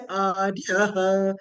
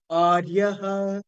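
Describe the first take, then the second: First: "Aryaha" with the ya raised in pitch; upward intonation on ya. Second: "Aryaha" starting on a lowered A; downward intonation on A. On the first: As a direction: lift the tone on "ya" in "Aryaha". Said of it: "ya carrying upward intonation". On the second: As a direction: Anudatta dip on the first syllable of "Aryaha". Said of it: "A is down". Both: Shown as a demonstration.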